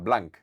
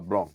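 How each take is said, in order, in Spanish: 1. El nombre se dice a la manera española. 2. El nombre se dice a la manera francesa. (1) "decía que él no se llamaba Blanc" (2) "se llamaba Blanc"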